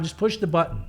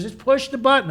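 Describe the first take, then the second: First: Said in the usual way. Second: Higher, insistent retold order. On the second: Kathy overruling his bad-idea objection, insistent. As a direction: imitate someone pressing the point.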